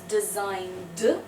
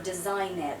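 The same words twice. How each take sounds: First: The ending sounds like a voiced D. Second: The ending sounds like an unvoiced T. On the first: The speaker calls it right. "so we say d" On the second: The speaker calls it wrong. "it is never, ever"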